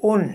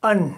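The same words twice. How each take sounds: First: ان said as "un", short u then n; ان pronounced un, the dammatain sound; sound of double damma. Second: ان said as "an", short a then n; ان pronounced an, the fathatain sound; sound of double fatha. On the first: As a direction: clearly say ان as un with a short rounded u. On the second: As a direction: clearly say ان as an with a short open a. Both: Shown as a demonstration. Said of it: "تو آواز کیا نکلے گی؟".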